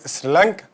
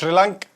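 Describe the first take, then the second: First: The name begins with a plain 's' sound. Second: The name begins with an 'sh' sound. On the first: This is the usual name. "هي سريلانكا" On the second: This is how the local people say it. "بس هما بينطقوهاش شريلانكا"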